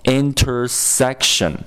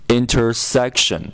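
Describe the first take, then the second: Both takes have the same delivery.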